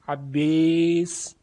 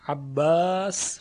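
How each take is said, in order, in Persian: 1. مصوت بلند به سمت صدای 'e' گرایش دارد. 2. مصوت بلند یک 'a' باز و ساده است. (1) "عباس اماله" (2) "عباس فتح"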